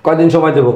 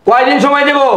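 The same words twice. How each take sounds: First: Much lower-pitched sceptical question; restrained menace before the outburst; low challenge. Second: Exasperated, escalating challenge; angry outburst. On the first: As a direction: ask it low and contained. Creditor questions the plea for time. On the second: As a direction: throw the question back heatedly. Creditor repeats question, voice raised. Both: Acted.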